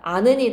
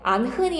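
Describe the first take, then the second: First: No h sound is heard in the middle. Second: An h sound is heard in the middle. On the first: The speaker calls it right. "히읗 탈락이라는 거야" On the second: The speaker calls it wrong. "안흔이 아니라"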